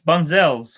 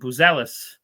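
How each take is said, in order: First: The surname is said like Bunzels. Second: The surname is said like Buzelis. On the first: The speaker calls it wrong. "I know I'm saying that wrong" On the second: The speaker calls it right. "I'm going to say his name right"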